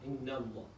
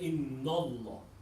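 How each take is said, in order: First: The vowel before Allah is light and thin. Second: The vowel before Allah is heavy and full. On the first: The speaker calls it right. "So you say inna Allah" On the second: The speaker calls it wrong. "Instead of saying inna Allah"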